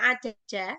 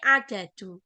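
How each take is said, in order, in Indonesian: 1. Kata ini berakhir dengan vokal 'a'. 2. Kata ini berakhir dengan vokal 'u'. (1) "Jadi membacanya tidak ada-ada" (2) "tapi adadu"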